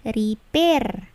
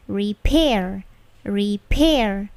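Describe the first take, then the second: First: Slow "repair" with no puff on the P; "repair" said as "ri-per", P held in; wrong non-plosive P. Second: "repair" with a puffed P; correct plosive P. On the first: Teacher showing students wrong repair, unaspirated P. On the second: Teacher demonstrating correct repair, aspirated P. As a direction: stress "pair" in "repair" with a burst of air. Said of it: "Yang benarnya". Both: Shown as a demonstration.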